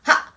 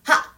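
First: The voice is pushed from the throat. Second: The voice is pushed from the throat.

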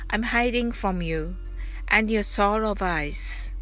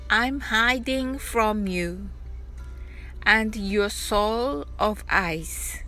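First: The line is spoken at a fast pace. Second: The line is spoken at a slow pace. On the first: "早く発音してみましょう" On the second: "まずはゆっくりと発音してみましょう"

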